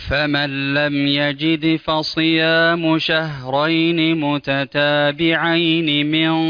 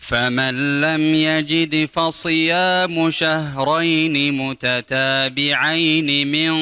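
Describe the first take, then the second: Both takes have the same delivery.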